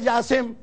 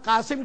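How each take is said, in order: First: The name begins with a 'j' sound. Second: The name begins with a 'q' sound.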